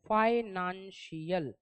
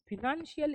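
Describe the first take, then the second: First: The first syllable has an 'eye' vowel. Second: The first syllable has a short 'i' vowel. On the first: The speaker calls it right. "इसका correct pronunciation आता है फाइनेंशियल" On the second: The speaker calls it wrong. "फिनेंशियल is not a correct pronunciation"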